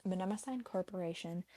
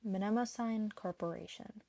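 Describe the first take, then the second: No difference in how they are said.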